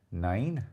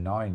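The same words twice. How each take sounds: First: "nine" drawn out with a bent vowel, like "nain"; imitated Welsh attempt. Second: Said in the usual way. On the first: Mimicking friend's Welsh attempt, "nine" drawn out as "nain". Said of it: "you're saying nine". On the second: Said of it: "you're not even saying nine".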